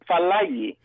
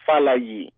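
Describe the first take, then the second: First: It is said in an American way. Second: It is said in a Nigerian way, tone falling.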